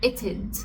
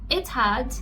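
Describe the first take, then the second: First: It is contracted, with a schwa before d. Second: Both words are said in full.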